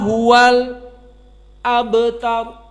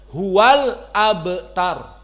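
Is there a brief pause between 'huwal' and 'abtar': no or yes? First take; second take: yes; no. First: A brief stop is made between huwal and abtar. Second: Huwal and abtar are joined without a pause.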